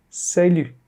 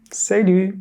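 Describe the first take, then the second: No difference in how they are said.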